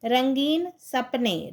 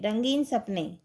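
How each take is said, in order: First: रंगीन सपने drawn out slowly, each syllable clear; slow model reading. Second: Said in the usual way. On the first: Shown as a demonstration. Teacher to pupils, modelling the phrase, slow and careful. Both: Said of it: "teacher models word pairs".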